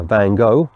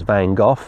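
First: "Gogh" said as "go"; alternative pronunciation. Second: "Gogh" said as "goff"; speaker's usual pronunciation. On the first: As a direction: say "Gogh" like "go", with no final consonant. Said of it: "sometimes pronounced". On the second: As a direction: end "Gogh" on an f sound, like "goff". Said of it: "I've always pronounced it as". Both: Shown as a demonstration.

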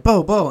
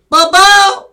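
First: Higher, louder name call; retold calling out. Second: Very high, blasting name yell; imitated scream. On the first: Father calling Bo in the store, retold shout. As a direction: call the name to get his attention. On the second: Shop guy joins father calling Bo, imitated scream. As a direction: shriek the name like the wild shopkeeper. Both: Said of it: "him and I just started screaming at Bo".

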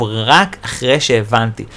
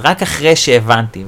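First: Slow, weighty רק אחרי שהבנתי with רק leaned on; stress on רק. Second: Said in the usual way. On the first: Shown as a demonstration. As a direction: say it slower and hit רק hard. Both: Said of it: "וחשוב".

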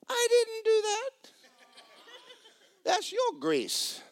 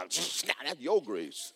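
First: High, slow, mock-indignant; indignant retort. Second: Slow, dry, pointed delivery; pointed retort. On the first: Maintenance man to the homeowner, high and mock-indignant. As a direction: pitch it up, drawn out and pointed. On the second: Retold or imitated. Pastor telling the congregation, slow and pointed. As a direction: lean on your, drawn out. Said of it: "I will come out and go".

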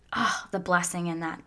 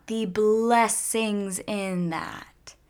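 First: Said in the usual way. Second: Slow savoring repeat. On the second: Real, not acted. Savoring the blessing for her viewers, very slow. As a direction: stretch "The blessings in that" out very slowly.

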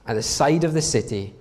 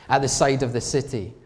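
The two takes are said the same way.

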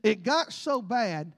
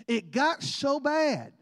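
First: Slow, weighty delivery; slow emphasis. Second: Slow emphasis. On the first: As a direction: let each word land slowly. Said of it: "now hear me". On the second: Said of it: "now this is in your Bible". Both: Acted.

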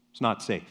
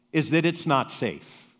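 First: Repeated lower and softer, "It's not safe" dropped to a hush; soft echo. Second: Said in the usual way. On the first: Shown as a demonstration. Pastor repeats the warning to his congregation, hushed and low.

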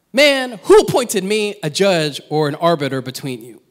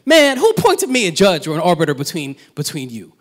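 First: Said in the usual way. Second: Louder, pointed challenge to the man; a touch of indignant rebuke; imagined Jesus' delivery. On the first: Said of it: "I read it when I see man". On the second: Shown as a demonstration. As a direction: say it as Jesus pushing back. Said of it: "the way he says".

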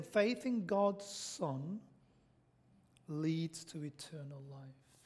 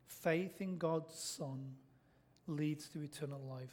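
First: Each word weighed, slow and deliberate; slow, weighty declaration; slow emphatic theme line. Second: Quieter, slower echo of the theme; hushed, slow restatement; soft repeat. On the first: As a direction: lay down the key line slowly. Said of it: "slow emphatic statement of the theme". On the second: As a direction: let it sink in softly. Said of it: "repeated theme, softer". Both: Shown as a demonstration.

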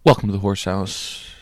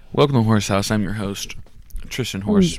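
First: Said in the usual way. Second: Upbeat host intro with pitched-up Horse; podcast host intro. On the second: Shown as a demonstration. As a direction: open the show like a radio host.

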